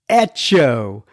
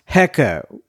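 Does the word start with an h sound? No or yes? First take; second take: no; yes. First: The word begins with a vowel sound. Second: The word begins with an h sound. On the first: The speaker calls it right. "it is pronounced echo" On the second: The speaker calls it wrong. "not pronounced hecko"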